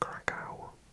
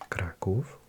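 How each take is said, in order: First: It is said with an American pronunciation. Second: It is said with a Polish pronunciation. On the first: "and I think in America" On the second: "so Warszawa in Polish, Kraków"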